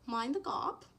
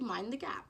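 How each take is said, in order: First: It is said in an imitated British accent. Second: It is said in the speaker's ordinary American accent.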